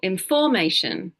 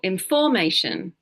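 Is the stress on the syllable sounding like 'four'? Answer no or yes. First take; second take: yes; yes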